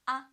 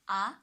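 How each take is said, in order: First: The pitch stays high and flat. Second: The pitch rises from mid to high. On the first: "First tone is on the five, so it's ah" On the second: "the second tone from three to five"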